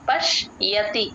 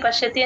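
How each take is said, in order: First: The y sound after sh is clearly heard. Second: The y sound after sh is weak or missing. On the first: The speaker calls it right. "ఆ యా clear గా వినిపించేటట్టు pronounce చేయండి" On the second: The speaker calls it wrong. "పశ్యతి పశ్యతి అని చెప్పేస్తారు, అలా అనకూడదు"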